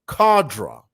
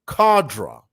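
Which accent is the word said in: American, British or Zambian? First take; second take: British; British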